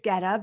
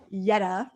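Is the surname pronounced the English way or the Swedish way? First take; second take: English; Swedish. First: The surname is pronounced in an English way. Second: The surname is pronounced in a Swedish way. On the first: "and I say it the English way" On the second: "it's Jetta, right, in Swedish?"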